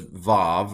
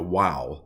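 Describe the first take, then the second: First: The name starts and ends with a v sound. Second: The name starts and ends with a w sound. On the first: This is how it sounds in modern Hebrew. "modern Hebrew does Vav" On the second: This is how it may have sounded in ancient times. "the older pronunciation, maybe even in Bible times"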